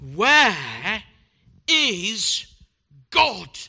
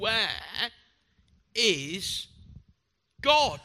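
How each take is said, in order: First: It is said in the sternest tone. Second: It is said in a sterner tone.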